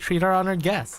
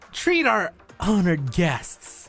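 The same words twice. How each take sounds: First: It is said in a plain, neutral manner. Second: It is said with a loaded, pointed inflection. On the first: The guests should be treated well. "just normally saying" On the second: The guests should be punished. "there's like inflection differences"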